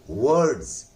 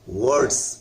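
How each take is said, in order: First: The r sound is silent in the word. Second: The r sound is pronounced in the word. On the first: The speaker calls it right. "आज के बाद आप पढ़ेंगे वर्ड्स" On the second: The speaker calls it wrong. "हम लोग इसको वर्ड्स पढ़ते हैं, गलत है वो"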